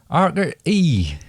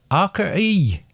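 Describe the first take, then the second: First: Slow West Country accent; a drawn-out West Country burr. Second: High West Country voice; West Country accent. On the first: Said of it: "move on to the West Country". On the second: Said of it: "West Country". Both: Shown as a demonstration.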